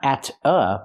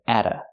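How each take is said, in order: First: The two words are said separately. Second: A quick tapped T joins the words. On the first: The speaker calls it wrong. "Not at a" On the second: The speaker calls it right. "but atta"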